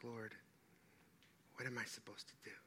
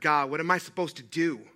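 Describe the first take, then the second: First: It is said calmly and peacefully. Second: It is said in an agitated, upset way.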